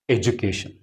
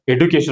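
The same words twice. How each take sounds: First: The d is said like a j sound. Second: The d is said as a plain d sound. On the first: "here it is making the sound of ja" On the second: "some people are even calling it as education also"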